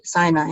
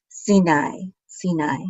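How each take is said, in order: First: "Sinai" said "SIGH-nigh", the English way; "Sinai" with an eye vowel, English style; English pronunciation. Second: "Sinai" said "see-NAI", Hebrew style; "Sinai" with an ee vowel, then fading softer; Hebrew pronunciation. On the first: Teacher giving the English "Sinai" for contrast. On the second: Teacher reading the Hebrew "Sinai" off the page. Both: Shown as a demonstration. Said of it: "We say Sinai in English".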